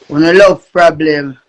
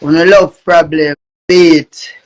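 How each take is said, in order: First: Low, slow catchphrase drawl; slow deep voice. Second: Deep voice. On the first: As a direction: drop the voice low and drag it out. Slower deep repeat of catchphrase. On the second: Heavy deep intro catchphrase. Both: Acted.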